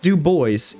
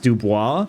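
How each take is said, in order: First: The name is said the American way. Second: The name is said the French way. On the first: "It's pronounced Du Bois, ... the American pronunciation" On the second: "it is a French name, and it is probably supposed to be pronounced Dubois"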